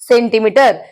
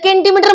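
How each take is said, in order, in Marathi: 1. शब्दाची सुरुवात s आवाजाने होते. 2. शब्दाची सुरुवात k आवाजाने होते. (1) "काय म्हणलो? सेंटीमीटर" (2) "इथं केंटीमीटर म्हणलो का आपण? नाही"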